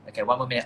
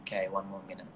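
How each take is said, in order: First: Louder time call to the audience; louder announcement of the last minute; announced to viewers. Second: Much softer, to herself; quietly noting the time left; soft aside. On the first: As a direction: tell everyone out loud. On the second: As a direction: murmur the time check. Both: Real, not acted. Checks remaining time on live.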